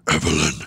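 It is said in a deep, raspy voice.

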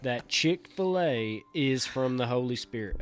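It is said in a strong Southern accent.

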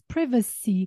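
It is said with a British English pronunciation. "and then British English is privacy"

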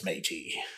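It is said in a zealous pirate voice. The speaker calls it right. "that was better"

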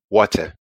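It has a hard British T.

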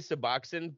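It has a South Jersey regional pronunciation. This is how locals say it. The speaker calls it wrong. "We say Suboxone"

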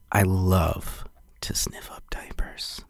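It is said eagerly with a sleazy, leering tone.

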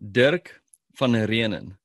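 The name is said the South African way.

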